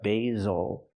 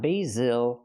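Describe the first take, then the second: First: The stress is on the first syllable. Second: The stress is on the second syllable. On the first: The speaker calls it right. "because the stress is on the first syllable" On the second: The speaker calls it wrong. "not the second one"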